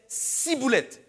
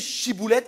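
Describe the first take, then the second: First: The word begins with an s sound. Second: The word begins with an sh sound. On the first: The sayer belongs to the enemy tribe. "ils disaient ciboulette" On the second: This is the required password form. "ils disaient même plus chiboulette"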